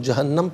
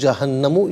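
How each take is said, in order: First: The word ends on a bare 'm' sound. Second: The word ends with a 'u' vowel after 'm'. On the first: The reader stops at this word. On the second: The reading continues without stopping.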